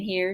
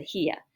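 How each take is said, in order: First: Said in the usual way. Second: Southern "here" with the r dropped. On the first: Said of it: "Instead of saying". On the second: Shown as a demonstration. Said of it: "talking Southern style".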